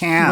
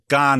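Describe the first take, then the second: First: The vowel is a flat 'a' sound. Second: The vowel is an open 'ah' sound. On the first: This is the ordinary English way to say it. The speaker calls it right. "It's can" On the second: The speaker is showing off knowledge of French. The speaker calls it wrong. "pretentious friend who thinks that if they go gone"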